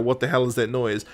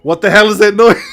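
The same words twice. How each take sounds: First: Low, softer mock grumble; retold complaint. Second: Loud, higher, laughing outcry; exasperated audience member. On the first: Retelling his complaint about the noise, low muted grumble. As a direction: complain under your breath, lightly acted. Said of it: "he's complaining about it". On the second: Retold or imitated. As an audience member hearing the noise, loud laughing complaint. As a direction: cry out in mock exasperation, breaking into laughter. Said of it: "as an audience member are like".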